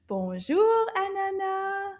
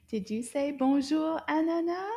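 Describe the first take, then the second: First: Louder greeting. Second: Said in the usual way. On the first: Shown as a demonstration. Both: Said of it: "Let's try it again".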